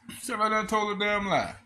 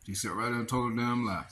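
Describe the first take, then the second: First: Shouted accusation. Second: Said in the usual way. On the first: Retold or imitated. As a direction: yell it out in disbelief. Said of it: "angry repeat, high loud". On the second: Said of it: "repeating the news clip".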